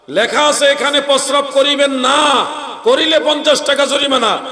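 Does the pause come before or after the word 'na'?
after. The pause comes after the word 'na'.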